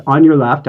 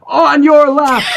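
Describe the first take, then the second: First: Said in the usual way. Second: High, sharper mock yell; impatient call. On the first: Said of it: "a person says". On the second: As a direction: bark the warning, fed up. Cyclist's third impatient call.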